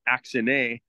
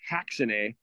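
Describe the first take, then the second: First: The word begins directly with a vowel sound. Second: The word begins with a hard H sound. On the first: The speaker calls it wrong. "it would think that it's axine" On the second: The speaker calls it right. "it actually is pronounced haxine. That hard H sound"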